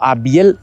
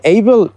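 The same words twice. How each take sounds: First: "Abiel" said the Spanish way, as ah-BYEL; Spanish pronunciation. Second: "Abel" said the English way, as EY-bel; English pronunciation. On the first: Narrator offering the alternative name, "Abiel" pronounced ah-BYEL. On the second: Narrator giving a settler's name, "Abel" pronounced EY-bel. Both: Real, not acted.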